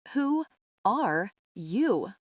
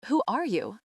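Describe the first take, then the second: First: Slow, strange-sounding guttural growl; the mother, no longer herself, growling a demand. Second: Said in the usual way. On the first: A narrator's reading. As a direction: drag the words out of the throat like a growl. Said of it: "her voice a guttural growl". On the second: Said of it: "I repeat".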